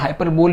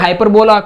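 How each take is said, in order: First: The word ends with a 'bowl' sound. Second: The word ends with a 'la' sound. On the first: "हाइपरबोल भी मत कहिए" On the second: "गलतियां करते हैं। जैसे कोई बोलेगा हाइपरबोला"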